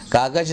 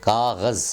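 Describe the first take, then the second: First: "कागज" with hard g and j; everyday "कागज" as kaagaj; common mispronunciation. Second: "कागज़" with throaty gh and final z; careful Urdu "कागज़", buzzed z; correct pronunciation. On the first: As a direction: say "कागज" ending in j. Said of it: "ना बोलें". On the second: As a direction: say "कागज़" as kaaghaz. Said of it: "कागज ना बोलें". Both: Shown as a demonstration.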